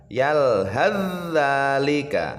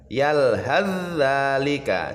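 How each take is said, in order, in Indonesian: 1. Bunyi th menyatu sepenuhnya ke dalam dh. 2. Bunyi th menyatu sepenuhnya ke dalam dh.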